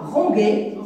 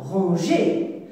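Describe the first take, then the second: First: "ranger" with a hard G, as ran-gué; misread without E. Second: Said in the usual way. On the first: Shown as a demonstration. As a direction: say "ranger" with G as in gare. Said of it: "Si j'efface E". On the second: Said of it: "Et ça se prononce".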